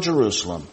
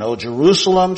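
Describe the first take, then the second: First: Soft lament. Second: Said in the usual way. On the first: Acted. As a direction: lower and softer, grieving over the city. Jesus' lament read aloud.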